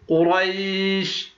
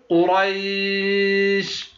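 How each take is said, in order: First: The long vowel is held for four counts. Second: The long vowel is held for six counts.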